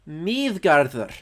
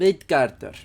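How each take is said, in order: First: The consonant is a soft TH sound. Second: The consonant is a hard D sound. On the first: The speaker calls it right. "it's pronounced like the T H in the" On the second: The speaker calls it wrong. "They pronounced it with a hard D"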